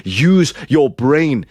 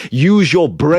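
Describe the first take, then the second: First: "Use your brain" slow, each word weighted; slow, firm scolding; slow emphatic. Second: Loud command. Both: Shown as a demonstration.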